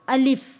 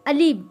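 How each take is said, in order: First: The word ends with a clear final f sound. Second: The word ends without the final f sound. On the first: The speaker calls it right. "अली नहीं बोलना" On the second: The speaker calls it wrong. "अलिफ को पढ़ते वक्त वो अली बोल देते हैं।"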